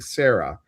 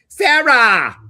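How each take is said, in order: First: The name is said plainly and briefly. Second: The ah is drawn out long and loud.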